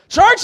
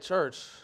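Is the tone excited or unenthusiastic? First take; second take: excited; unenthusiastic. First: It is said with excitement. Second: It is said without enthusiasm.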